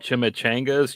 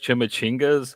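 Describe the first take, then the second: First: The word ends with the sound 'changas'. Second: The word ends with the sound 'chingas'. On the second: "she used to call uh, chimichangas chimichingas"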